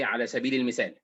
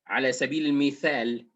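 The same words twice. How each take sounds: First: Mithal is said with an s-like sound. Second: Mithal is said with a th sound. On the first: This is how most Egyptians say it. "we say" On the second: This is not how most Egyptians say it. "we don't say tha"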